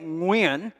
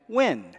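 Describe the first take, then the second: First: The name is said with Vietnamese pronunciation. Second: The name is said with an anglicized pronunciation. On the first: "which is how it's actually pronounced in Vietnamese" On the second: "people just came up with all kinds of variations"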